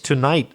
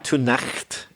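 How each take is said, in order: First: The word is said with its 'gh' kept silent. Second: The word is said with its spelled 'gh' sounded. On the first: The speaker calls it right. "it's tonight" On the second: The speaker calls it wrong. "You know it's not tonight"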